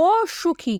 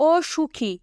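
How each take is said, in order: First: অসুখী with a soft, thin "s"; soft pronunciation. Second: অসুখী with a thick, heavy "sh"; grave pronunciation. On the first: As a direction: say অসুখী lightly, with the finer sibilant. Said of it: "এটা কিন্তু কোমল উচ্চারণ হচ্ছে". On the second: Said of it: "গম্ভীরভাবে হবে". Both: Shown as a demonstration.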